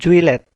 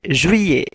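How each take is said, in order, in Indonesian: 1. Double L dibaca dengan bunyi l. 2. Double L dibaca dengan bunyi y. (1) "bukan juillet" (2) "double L maka dibacanya itu Y"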